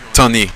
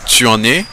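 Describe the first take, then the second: First: The vowel of tu is dropped entirely. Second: The vowel of tu is pronounced fully.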